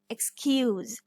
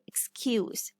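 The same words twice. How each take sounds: First: The s is pronounced as a z sound. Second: The s is pronounced as an s sound. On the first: It is the verb. "Excuse is a verb, so S is saying the z sound" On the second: It is the noun. "here I'm saying it excuse"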